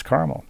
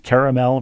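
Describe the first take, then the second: First: Second "caramel" as CAR-mul; "caramel" with no middle vowel, CAR-mul; two-syllable caramel second. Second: First "caramel" as KAIR-uh-mel; "caramel" with a full middle vowel, KAIR-uh-mel; three-syllable caramel first. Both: Shown as a demonstration. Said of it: "caramel versus caramel".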